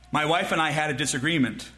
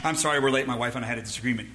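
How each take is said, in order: First: Said in the usual way. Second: Low, rushed late-arrival apology; mock offhand excuse. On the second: Husband excusing lateness to church friends, mock offhand.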